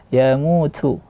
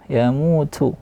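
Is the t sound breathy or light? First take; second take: breathy; breathy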